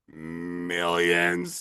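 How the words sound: It is said in a Smeagol voice.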